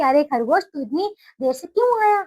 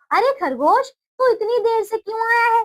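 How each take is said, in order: First: Said in the usual way. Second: High angry lion voice; a lion scolding the rabbit; angry lion demand. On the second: Acted. Lion scolds the late rabbit, high and angry.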